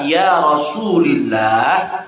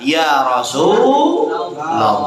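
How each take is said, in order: First: The word ends in the genitive vowel. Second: The word ends in the accusative vowel. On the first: The speaker calls it wrong. "maka kita baca bukan" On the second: The speaker calls it right. "tapi kita baca"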